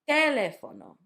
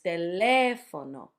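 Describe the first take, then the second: First: The stress is on the first syllable. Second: The stress is on the second syllable. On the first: The speaker calls it wrong. "if you went with the English" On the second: The speaker calls it right. "So it's"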